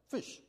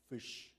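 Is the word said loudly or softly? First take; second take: loudly; softly. First: The word is said at normal loudness. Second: The word is said very softly.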